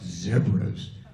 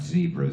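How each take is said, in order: First: It is said the way local people say it. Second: It is said the speaker's usual, familiar way. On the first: This is how the people who live with the animal say it. The speaker calls it right. "pronounced zebras by the locals" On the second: This is how the speaker's own people say it. The speaker calls it wrong. "not zebras"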